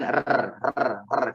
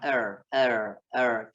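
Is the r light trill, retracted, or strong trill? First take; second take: strong trill; retracted. First: The r is rolled with a strong, long trill. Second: The r is pulled back with no trill. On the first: "Tidak juga bergetar pisan" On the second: "Ro-nya orang-orang bule ya, ... ya-nya ditarik ke belakang"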